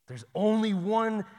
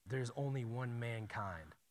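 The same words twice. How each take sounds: First: "only" stretched, higher and louder, slow; emphatic, slowed pulpit stress; stressed repeat. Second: Said in the usual way. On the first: Shown as a demonstration. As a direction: lean hard on "only one" like a preacher.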